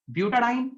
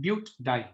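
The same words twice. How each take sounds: First: ब्यूटाडाइन as "bu-ta-diene" in one smooth flow; ब्यूटाडाइन, smooth and even; full flow. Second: ब्यूटाडाइन as "but-diene", break after ब्यूट; ब्यूटाडाइन with a catch mid-word; break in the middle. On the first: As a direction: roll ब्यूटाडाइन out without a break. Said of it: "पूरा flow में निकल रहा है". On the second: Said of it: "break तो आ रहा है बीच में". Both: Shown as a demonstration.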